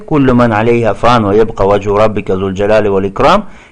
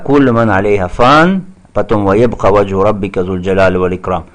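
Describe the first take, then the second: First: The verse is read straight through without stopping. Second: The verse stops after the first half, then continues. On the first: The two halves are understood as one contrast. The speaker calls it right. "не останавливайся, а читай вместе" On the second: The two halves are treated as separate statements. The speaker calls it wrong. "Не так"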